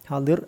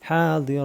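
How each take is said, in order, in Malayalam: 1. വാക്ക് വ്യഞ്ജനത്തിൽ അവസാനിക്കുന്നു, അവസാന സ്വരമില്ല. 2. വാക്ക് ദീർഘിപ്പിച്ച അവസാന സ്വരത്തിൽ അവസാനിക്കുന്നു. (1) "ഹാദിർ അല്ല" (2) "നിർത്തുമ്പോൾ അലിഫ് ഉള്ളതുകൊണ്ട് നീ ദീർഘത്തോട് നിർത്തുക"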